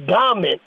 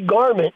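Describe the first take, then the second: First: The word is said in an imitated pronunciation. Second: The word is said in a plain pronunciation. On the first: This is how the man said it. "He'd say garment" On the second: This is how the man would not say it. "he wouldn't say garment"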